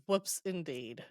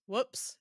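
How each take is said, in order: First: Dry, unimpressed retort. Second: Lightly acted little oops; light retold whoops. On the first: Retold or imitated. He answers her slip, very dryly. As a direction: echo it drily, lightly acted. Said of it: "very dryly". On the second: She owns up to her accident, light whoops. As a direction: toss it off as a small slip.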